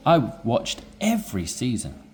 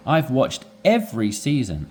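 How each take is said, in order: First: Every pushed, rest of line even; stress on every. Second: Every hit harder inside the line; stress on every. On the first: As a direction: punch every once more. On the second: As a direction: lean on every. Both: Shown as a demonstration. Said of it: "I would emphasize this word, every".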